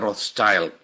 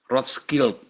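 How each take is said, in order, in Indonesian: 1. Nama itu diucapkan dengan pengucapan Inggris. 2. Nama itu diucapkan dengan pengucapan Jerman. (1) "Kalau bahasa Inggrisnya Rothschild" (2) "Rothschild itu dari kata bahasa Jerman"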